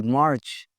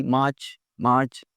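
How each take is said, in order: First: मार्च with a clear r, marrch; American English March. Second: मार्च without the r, maach; British English March. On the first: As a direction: sound the r in मार्च. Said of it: "American में आएगी". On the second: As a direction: drop the r in मार्च. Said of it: "British English में आर की आवाज़ नहीं आएगी". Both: Shown as a demonstration.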